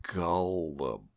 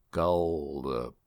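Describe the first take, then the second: First: Gullible drawn out slowly, syllable by syllable; a slow teasing demo of Gullible; slow gullible again. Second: Gullible said slowly and stretched out; a teasing slow demo of Gullible. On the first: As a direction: stretch Gullible out until it sounds like orange. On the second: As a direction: draw out Gullible slowly so it sounds like orange. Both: Shown as a demonstration. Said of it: "if you say the word gullible slow enough".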